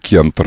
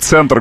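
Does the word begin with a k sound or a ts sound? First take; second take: k sound; ts sound. First: The word begins with a k sound. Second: The word begins with a ts sound. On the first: This is how Petersburgers say it. "а вы говорите кентр" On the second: This is how Muscovites say it. "я говорю, кесарево. Например, центр города"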